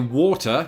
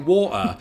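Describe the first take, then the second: First: The middle t is fully pronounced. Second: The middle t becomes a glottal stop. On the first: "I would say water" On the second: "I might apply a glottal stop and say water if I'm being really casual"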